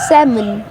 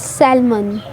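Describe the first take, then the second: First: The L sound is silent in the middle. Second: The L sound is pronounced in the middle. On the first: The speaker calls it right. "इसका जो एल है वो as a silent letter काम करेगा" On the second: The speaker calls it wrong. "हम इसको कैसे pronounce करते हैं"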